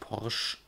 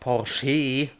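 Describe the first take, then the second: First: The final e is silent, one syllable. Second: The final e is pronounced as a syllable. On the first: The speaker calls it wrong. "nicht Porsche" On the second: The speaker calls it right. "Das ist ja nicht umsonst ein E"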